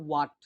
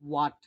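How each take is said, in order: The two takes are said the same way.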